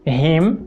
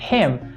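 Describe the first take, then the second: First: It starts with a vibrating, voiced sound. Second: It starts with a harsh sound, no vibration. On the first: The speaker calls it wrong. "Ao invés de" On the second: The speaker calls it right. "você deve falar"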